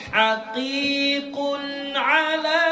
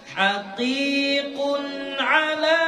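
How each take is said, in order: Both takes have the same delivery.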